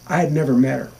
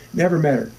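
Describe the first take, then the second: First: Said in the usual way. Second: Never lifted higher and landed with a fall; Never said a little higher, falling; stress on never. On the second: Real, not acted. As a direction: lean on the word Never.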